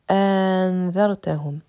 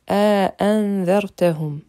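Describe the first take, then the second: First: One glottal stop with a lengthened vowel. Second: Two separate glottal stops open the word. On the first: "on prononcera une seule hamza et allongée" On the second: "on prononcera les deux hamza normalement"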